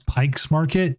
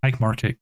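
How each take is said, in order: First: An s sound follows the word Pike. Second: No s sound follows the word Pike. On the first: The speaker calls it wrong. "everyone mispronounces Pike Market as Pike's Market" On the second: The speaker calls it right. "there is no S in it. It is just Pike Market"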